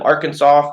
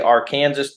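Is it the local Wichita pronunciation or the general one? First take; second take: general; local Wichita. First: It is said the way everywhere else says it. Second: It is said the local Wichita way.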